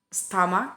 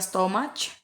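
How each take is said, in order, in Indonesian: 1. Konsonan akhir adalah bunyi k biasa. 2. Konsonan akhir adalah bunyi ch.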